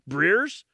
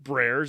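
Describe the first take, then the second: First: The vowel sounds like the one in 'beer'. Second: The vowel sounds like the one in 'bear'. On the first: The speaker calls it right. "it's like beer Breers?" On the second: The speaker calls it wrong. "It's not Brers"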